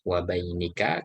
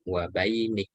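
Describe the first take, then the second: First: The word ends with a final vowel. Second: The word ends on the consonant k. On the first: The reading continues without stopping. "kalau dibaca lengkap" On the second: The reader stops at this word. "kalau mau diwakofkan"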